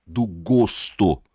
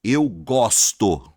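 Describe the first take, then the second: First: Loud, slow "gosto" with a closed O. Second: Loud, slow "gosto" with an open O. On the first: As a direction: stretch the closed O of the noun "gosto". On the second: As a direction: stretch the open O of the verb "gosto". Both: Shown as a demonstration. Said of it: "som diferente".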